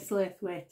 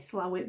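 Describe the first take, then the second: First: The name is said as spelled, 'Slaithwaite'. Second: The name is said as two short syllables, 'Slowit'. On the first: This is not how local people say it. The speaker calls it wrong. "You don't say Slaithwaite" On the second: This is how local people say it. The speaker calls it right. "the local slate say Slowit"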